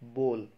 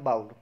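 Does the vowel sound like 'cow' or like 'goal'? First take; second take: goal; cow. First: The vowel sounds like the 'oa' in goal. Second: The vowel sounds like the 'ow' in cow. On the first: The speaker calls it right. "गोल की जगह पे ब लगा दीजिए" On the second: The speaker calls it wrong. "इसकी हम गलत pronunciation करते हैं और इसको हम बोलते हैं बाउल"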